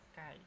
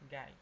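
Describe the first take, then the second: First: The word begins with a k sound. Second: The word begins with a g sound. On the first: This is how native speakers actually say it. "kedengarannya kayak kai" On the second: This is the form recommended for learners. "mending kalian bunyinya huruf G aja ya"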